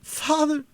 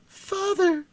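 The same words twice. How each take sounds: First: High, calling cry for her father; piercing cry. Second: Even higher, desperate repeated call; piercing cry. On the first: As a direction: cry out through the mist. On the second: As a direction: call again, more desperate. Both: A narrator's reading. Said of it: "exclaimed a piercing cry".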